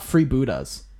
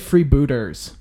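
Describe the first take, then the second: First: The word ends with an 'a' sound. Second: The word ends with a clear 'er' sound. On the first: The speaker calls it wrong. "It's not Free Buddhas" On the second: The speaker calls it right. "It's actually Free Booters. ER"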